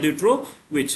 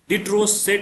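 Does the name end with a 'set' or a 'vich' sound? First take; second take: vich; set. First: The name ends with a 'vich' sound. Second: The name ends with a 'set' sound. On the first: "ज्यादातर ड्यूट्रोविच कहीं कहीं लिखा जाता है" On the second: "ड्यूट्रोसेट ही बोला जाता है"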